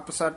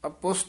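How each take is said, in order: First: The second syllable has an a vowel and s. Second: The second syllable has a u vowel and sh. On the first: The speaker calls it wrong. "ਅਪਸਟ ਨਹੀਂ ਕਹਿ ਦੇਣਾ" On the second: The speaker calls it right. "ਇਹ ਅਪੁਸ਼ਟ ਉਚਾਰਨ ਕਰਨਾ"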